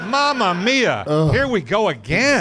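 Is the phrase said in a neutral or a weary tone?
weary. It is said in a weary, exasperated tone. The film drags on too long.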